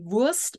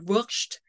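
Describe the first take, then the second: First: The ending is said with a plain s sound. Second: The ending is said with an sh sound. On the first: "not only Wurst" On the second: "The ST pronounced like a sh"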